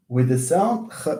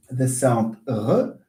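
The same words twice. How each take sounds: First: Ch as a voiceless throaty rasp; ch sound. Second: R as a voiced throaty French r, slowly. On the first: (صوت الخاء مهموس) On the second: (الراء الفرنسية مجهورة وبطيئة) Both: Shown as a demonstration.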